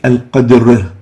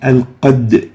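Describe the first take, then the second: First: The echoing bounce falls on the r. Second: The echoing bounce falls on the d. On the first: The speaker calls it wrong. "we shouldn't say al-qadr" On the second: The speaker calls it right. "So we say al-qadr"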